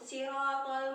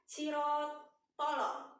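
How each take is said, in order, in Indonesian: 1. Huruf l terakhir berhenti langsung tanpa vokal. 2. Huruf l terakhir dipantulkan dengan tambahan vokal. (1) "tapi langsung sirotol mustaqim" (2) "santri banyak sekali yang mengatakan sirotolo"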